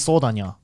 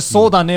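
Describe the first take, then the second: First: The phrase ends with a 'nya' sound. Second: The phrase ends with a plain 'ne' sound. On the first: "will be sodanya" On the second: "sodane will be sodanya"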